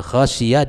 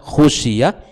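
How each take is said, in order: First: The first vowel is an open 'a' sound. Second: The first vowel is a rounded 'u' sound. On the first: The Prophet was the one who feared. "dibaca dengan khasyiyah dengan fathah kha" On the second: The companions were the ones who feared. "didammahkan khusyiyah"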